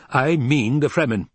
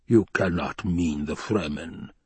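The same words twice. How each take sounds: First: Higher, emphatic retort; firm insistence. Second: Slow, measured disbelief; disbelieving. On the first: Hawat confirms he means Fremen, insistent. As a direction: throw it straight back, certain. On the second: Baron doubts Hawat's recruits, slow disbelief. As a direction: weigh every word in doubt. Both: Acted.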